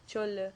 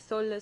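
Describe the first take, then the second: First: The word begins with a ch sound. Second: The word begins with an s sound. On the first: Other regions pronounce it this way. "some people say cholla" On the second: Some regions pronounce it this way. "some people say solla"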